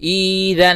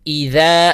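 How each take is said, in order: First: The first vowel is stretched long. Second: The first vowel is kept short. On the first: The speaker calls it wrong. "नहीं पढ़ेंगे" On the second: The speaker calls it right. "एक हरकत"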